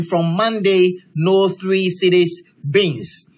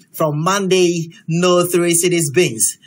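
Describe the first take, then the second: First: Slow read-out. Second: Said in the usual way. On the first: Shown as a demonstration. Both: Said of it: "photo of the day with an inscription".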